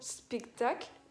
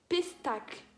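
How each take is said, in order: First: The word begins with an 'sp' sound. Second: The word begins with a 'p' sound. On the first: The speaker calls it right. "je n'arrivais pas à dire le mot spectacle" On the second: The speaker calls it wrong. "Je disais pestacle"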